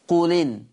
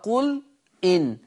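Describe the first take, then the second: First: The glottal stop is dropped, joining the words. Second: The glottal stop is kept before the second word.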